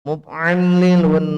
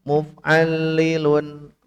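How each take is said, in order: First: The n is pronounced clearly before the l. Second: The n merges into the following l sound. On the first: The added nun stays recognizable. The speaker calls it right. "Jangan dilebur" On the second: The added nun can no longer be recognized. The speaker calls it wrong. "Kalau di lebur jadi hilang nun"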